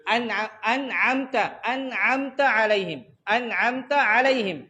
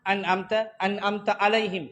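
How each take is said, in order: First: Slow "انعمت علیہم" with both ains squeezed in the throat; clear ain. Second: "انعمت علیہم" with ain flattened to a plain a; wrong hamza for ain. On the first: Teacher correcting the reading, clear ain. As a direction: recite "انعمت" slowly, ain distinct from hamza. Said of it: "تو یہ فرق جو واضح کرو". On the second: Teacher imitating a faulty reading, ain lost. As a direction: read "انعمت" without any throat squeeze. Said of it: "صحیح ایسا ہے؟". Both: Shown as a demonstration.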